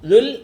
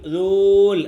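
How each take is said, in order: First: The vowel is kept short. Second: The vowel is drawn out long. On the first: The speaker calls it right. "നീട്ടി വായിക്കത്തില്ല" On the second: The speaker calls it wrong. "ദൂൽ ദൂൽ അങ്ങനെ പറയത്തില്ല"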